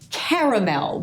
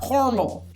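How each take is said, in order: First: The middle vowel is sounded, giving three syllables. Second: The middle vowel is dropped, giving two syllables. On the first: The speaker calls it right. "because there is a ginormous letter A in the middle of the word caramel" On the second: The speaker calls it wrong. "not caramel"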